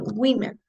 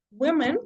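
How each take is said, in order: First: "women" said WIH-men; short i in the first syllable of "women"; plural pronunciation. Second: "women" said as singular woman, WUU-mun; singular pronunciation. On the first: Teacher showing a student the plural, "women" as WIH-men. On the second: Teacher showing a student the singular, "women" as WUU-mun. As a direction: round the first vowel of "women" to a short oo. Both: Shown as a demonstration. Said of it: "the only difference is in pronunciation".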